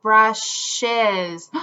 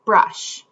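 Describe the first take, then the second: First: "Brushes." drawn out in two clear beats, brush-es; syllable demo. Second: "Brush." as a single clipped-off syllable; syllable demo. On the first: Teacher shows kids the extra syllable in "Brushes.", two slow beats. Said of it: "Let's try the word brushes". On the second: Teacher counts syllables for kids in "Brush.", one clear beat. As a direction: say "Brush." once so the chin drops once. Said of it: "Let's feel the word brush and count syllables". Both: Shown as a demonstration.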